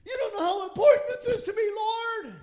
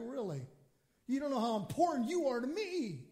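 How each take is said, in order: First: High, loud, fast outcry; urgent pleading. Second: Gently incredulous answer, unhurried; God answering. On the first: Believer begs God to grasp how much it matters, urgent pleading. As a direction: plead frantically at full voice, hammed up. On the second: God replies to a pleading believer, gently incredulous. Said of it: "he's looking at us like". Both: Acted.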